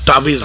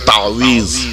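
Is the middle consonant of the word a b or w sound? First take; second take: b; w. First: The middle consonant is a b sound. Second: The middle consonant is a w sound. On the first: The speaker calls it wrong. "তাবিজ নেই" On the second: The speaker calls it right. "কথাটা হচ্ছে তাওয়িজ"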